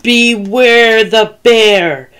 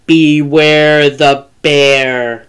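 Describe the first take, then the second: First: Higher, slow growly call at its peak; drawn-out warning, right on top of them; growly bear, very close. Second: Slow, low, drawn-out growl; menacing growly bear drawing nearer; growly bear, closer. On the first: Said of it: "And closer". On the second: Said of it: "the voice came closer". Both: A narrator's reading.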